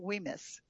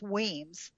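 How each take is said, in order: First: The name is said with two syllables. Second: The name is said with one syllable. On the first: The speaker calls it wrong. "I was pronouncing it Weemis" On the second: The speaker calls it right. "but it's Weems. The Y is not pronounced"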